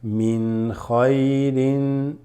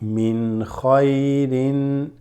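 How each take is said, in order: The two takes are said the same way.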